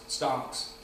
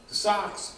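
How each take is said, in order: First: "stocks" with a clear t after the s. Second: "socks" with no t sound; socks said plainly. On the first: Wordplay on socks versus stocks, saying "stocks" with its t. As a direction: add the t: "stocks". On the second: Wordplay on socks versus stocks, "socks" said plainly. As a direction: say "socks", clean s-o-c-k-s. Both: Shown as a demonstration.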